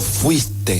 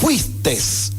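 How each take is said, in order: First: The word ends with a vowel sound. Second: The word ends with an s sound. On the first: The speaker calls it right. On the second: The speaker calls it wrong.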